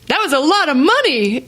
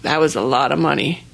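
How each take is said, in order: First: It is said in a bright, happy tone. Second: It is said in a heavy, glum tone. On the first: Having that much money is something to celebrate. The speaker calls it right. "With an exclamation point, happy" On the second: Spending the money feels like a loss. The speaker calls it wrong. "that didn't feel good"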